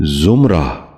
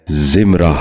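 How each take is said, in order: First: زمرہ with short u, "zum-ra"; correct زمرہ. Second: زمرہ with short i, "zim-ra"; mispronounced زمرہ. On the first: Teacher modelling for viewers, زمرہ said as "zumra". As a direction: start زمرہ with zum, not zim. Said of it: "درست تلفظ ہے". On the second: Teacher showing viewers a common mistake, زمرہ said as "zimra". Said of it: "غلط تلفظ ہے". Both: Shown as a demonstration.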